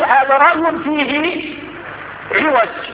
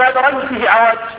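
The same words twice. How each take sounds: First: The last word begins with an 'i' vowel. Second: The last word begins with an 'a' vowel. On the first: It refers to crookedness that cannot be seen. The speaker calls it right. "إن كسرت العين تقول عوج" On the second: It refers to crookedness that can be seen. The speaker calls it wrong. "ولا تقول"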